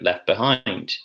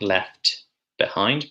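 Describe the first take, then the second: First: The t at the end of left is dropped. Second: The t at the end of left is pronounced. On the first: The speaker calls it right. "but left behind" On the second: The speaker calls it wrong. "not left behind"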